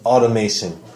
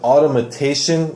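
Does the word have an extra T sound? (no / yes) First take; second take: no; yes. First: The word is said without an extra T sound. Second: The word is said with an extra T sound. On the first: The speaker calls it right. "just automation" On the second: The speaker calls it wrong. "like you gave an extra T in there"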